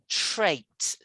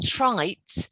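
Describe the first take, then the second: First: The vowel sounds like 'ay'. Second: The vowel sounds like 'eye'. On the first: The speaker calls it right. "This first one is more like trait" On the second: The speaker calls it wrong. "not trite"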